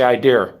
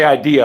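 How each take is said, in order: First: Idea as eye-DEAR with an r; his idea. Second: Idea as eye-DEE-uh; standard idea. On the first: Showing viewers his own way, eye-DEAR. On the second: The way he doesn't say it, eye-DEE-uh. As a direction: say idea ending in uh. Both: Shown as a demonstration. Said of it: "I say idea".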